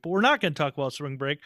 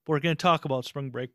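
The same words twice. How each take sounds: First: "not" punched and lifted; stress on not. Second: "talk" pushed up and held; stress on talk. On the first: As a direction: hit "not" hard, rest flat. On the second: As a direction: lean on "talk", not on "gonna". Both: Pretend.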